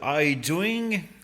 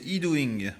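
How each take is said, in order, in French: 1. Le nom est prononcé avec un accent anglais. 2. Le nom mélange les accents français et anglais. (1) "à l'anglaise" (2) "je fais un mix des deux"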